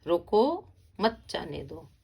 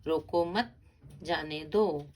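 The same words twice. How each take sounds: First: रोको loud and drawn out, pause, then मत जाने दो dropping away; pause after रोको. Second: रोको मत run together, rising, pause, then जाने दो falling; pause after मत. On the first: Teacher showing the moved comma, pause after रोको. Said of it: "तो यहाँ पर भी लगा". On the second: Teacher showing where the comma falls, pause after मत. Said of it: "अल्प विराम भी लगा और पूर्ण विराम भी". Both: Shown as a demonstration.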